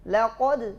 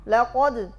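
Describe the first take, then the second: No difference in how they are said.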